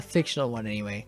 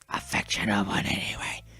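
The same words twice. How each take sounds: First: It is said in a normal voice. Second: It is said in a whisper.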